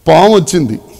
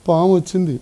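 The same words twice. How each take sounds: First: It is shouted loudly and urgently in alarm. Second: It is said quietly and calmly, without urgency. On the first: The speaker calls it right. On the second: The speaker calls it wrong.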